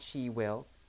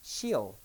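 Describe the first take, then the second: First: Will is said as a full separate word. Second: Will is reduced and joined onto she. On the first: The speaker calls it wrong. "Not she will" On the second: The speaker calls it right.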